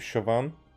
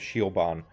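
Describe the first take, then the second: First: The name begins with a single 'sho' sound. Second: The name begins with a separate 'ee' sound. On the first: This is how the name should be pronounced. The speaker calls it right. "before I translate it to Shoban" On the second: This is how the written name first reads. The speaker calls it wrong. "Shioban is is what comes to mind, and then and I know that it's not like that"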